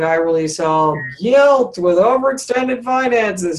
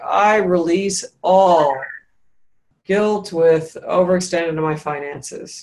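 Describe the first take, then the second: First: The opening phrase carries no joyful emphasis. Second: The opening phrase is stressed with joyful lift. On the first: The speaker calls it wrong. "it's not like" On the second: The speaker calls it right. "kind of elation or joy or emphasis on the right syllable, the I release all"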